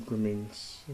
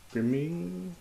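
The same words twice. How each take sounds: First: Said in the usual way. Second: High-pitched grimming. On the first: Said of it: "plain first read of the word". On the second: Pretend. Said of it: "repeats word, pitch climbing".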